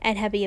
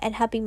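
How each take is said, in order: First: The stress is on the syllable un. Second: The stress is on the syllable hap. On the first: "it can do emphasize the negative" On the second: "အဲ့ h နေရာမှာပဲပေါ့နော် stress ချလို့ရတယ်"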